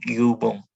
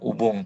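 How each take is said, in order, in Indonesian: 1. Vokal pertama adalah bunyi 'ü' yang dibulatkan. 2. Vokal pertama adalah bunyi 'u' biasa. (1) "tapi yubung" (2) "Bukan ubung"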